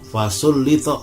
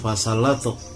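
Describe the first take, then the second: First: The middle vowels sound like u then i. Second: The middle vowels sound like a then a. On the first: The speaker calls it right. "yang benar adalah fasullitu" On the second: The speaker calls it wrong. "ada yang mengatakan fasallatu"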